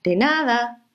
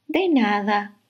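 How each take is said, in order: First: Higher, cheerful ladybug voices; two ladybugs. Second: Kindly little bug voice; friendly ladybug. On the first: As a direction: answer together like ladybugs. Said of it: "respondieron las dos mariquitas". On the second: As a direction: answer like a kind ladybug. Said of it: "le respondió la mariquita simpática". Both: Acted.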